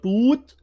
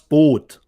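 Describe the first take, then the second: First: It is said with the English long vowel. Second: It is said with the German short vowel. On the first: The speaker calls it wrong. "not Boot" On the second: The speaker calls it right. "in Germany is called das Boot"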